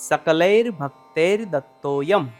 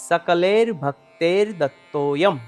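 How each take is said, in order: Both takes have the same delivery.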